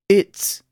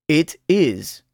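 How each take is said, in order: First: The words are joined into one syllable. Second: The two words are said in full. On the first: "luego contraído con el pronombre personal" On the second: "oirá el verbo sin contracción"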